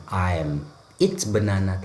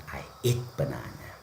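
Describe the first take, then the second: First: Flag "I'm eat" as the mistake; wrong version. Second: "I eat banana" said low and soft as the correct form; right version. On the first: Teacher warns students not to say "I'm eat banana". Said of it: "jangan katakan". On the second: Teacher tells students to say "I eat banana" instead. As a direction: calmly model "I eat". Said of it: "tapi katakan". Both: Shown as a demonstration.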